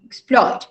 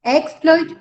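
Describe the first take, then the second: First: "exploit" stressed on PLOIT; verb stress. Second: "Exploit" stressed on EX, pitched high; noun stress. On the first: Teacher correcting student, second-syllable stress on "exploit". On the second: Teacher correcting student, first-syllable stress on "Exploit". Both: Shown as a demonstration. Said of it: "try, try to place".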